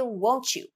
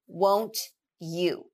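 First: The words are blended together in a reduced form. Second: The words are said fully and separately.

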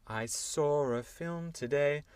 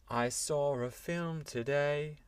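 No difference in how they are said.

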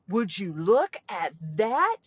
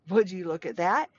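First: It is said with amazement. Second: It is said in a plain, neutral way.

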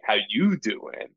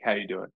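First: The word 'you' is strongly stressed, Joey-style. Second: It is said quickly without stressing 'you'.

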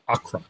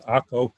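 First: The name is given its English pronunciation. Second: The name is given its Hebrew pronunciation. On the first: "which would look in English like Acre" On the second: "but we pronounce it Acre"

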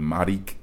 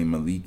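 First: The middle consonant is an R sound. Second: The middle consonant is an L sound. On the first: This is the name as others say it. The speaker calls it wrong. "they call me Marik" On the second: This is the name as the speaker says it. The speaker calls it right. "They don't say Malik"

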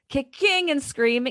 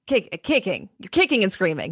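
First: Kicking has stress on an unusual syllable. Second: Kicking has its usual syllable stress. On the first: The speaker calls it wrong. "She puts the emphasis on really weird syllables" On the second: The speaker calls it right.

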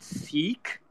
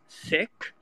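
First: The word does not sound like sick. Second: The word sounds like the English word sick. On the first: This pronunciation avoids confusion with the word for illness. "started calling it Sikh because it would get confused with like cough, cough, Sikh" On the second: This is the original pronunciation in the home language. "in Punjabi, it's pronounced Sikh"

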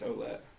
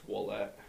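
First: The name begins with an 'oh' sound. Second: The name begins with a 'w' sound. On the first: This is the American way of saying the name. "the American way, it starts with an O" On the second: This is the Canadian, French way of saying the name. "every time I talk to someone in Canada, it's Ouellette. Because the O-U-E makes the wall sound"

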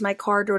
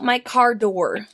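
First: The words run together into one blended stretch. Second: Each word is said clearly and separately. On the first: The speaker calls it wrong. "You, like, blended that together" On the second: The speaker calls it right.

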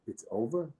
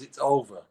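First: The voice stays up, left unfinished. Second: The voice falls to a final close. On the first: Feelings remain and it is not settled. The speaker calls it right. "Why don't you leave it unresolved?" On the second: The matter is finished and settled. The speaker calls it wrong. "Why is it resolved?"

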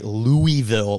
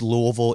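First: It is said the way outsiders say it. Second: It is said the way locals say it. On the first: The speaker calls it wrong. "which all the Kentuckians are like cringing listening" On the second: The speaker calls it right. "you hit the nail right on the head"

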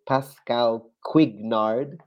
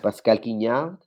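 First: The name is said with an English accent. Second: The name is said with a French accent. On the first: "try to mangle in English" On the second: "I'm going to say in French"

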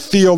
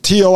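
First: The name starts with a th sound. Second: The name starts with a plain t sound. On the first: It reminds listeners how the name is spelled. "I say Thiel now so that ... you'll put in the T-H" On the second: This is how most people say it. "Most pronounce it Thiel"

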